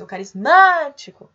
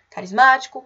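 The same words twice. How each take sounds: First: Loud, raised hail with a stretched "má" in "carismático"; ringing call peaking on the "má" of "carismático". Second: Said in the usual way. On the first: Shown as a demonstration. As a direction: call "carismático", leaning long on the third syllable. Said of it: "Se vocês chamarem". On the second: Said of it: "Exemplo que nós temos".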